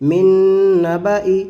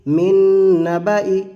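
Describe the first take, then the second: The two takes are said the same way.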